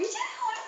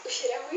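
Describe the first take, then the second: First: Much higher squeal on the repeat; squealed complaint. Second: Said in the usual way. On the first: Real, not acted. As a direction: squeak it out in disgust. Repeated complaint about smell.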